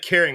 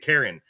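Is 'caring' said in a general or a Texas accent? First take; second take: general; Texas. First: The word ends clearly in an 'ing' sound. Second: The word sounds like the name Karen. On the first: "They don't say caring" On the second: "they say Karen"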